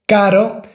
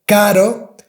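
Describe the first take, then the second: Both takes have the same delivery.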